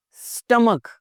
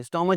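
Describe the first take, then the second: First: स्टमक ending on a hard k; high, clear स्टमक with final k. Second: स्टमच ending in ch; mispronounced CH. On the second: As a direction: say स्टमच as stom-atch. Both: Shown as a demonstration. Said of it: "स्टमच नहीं".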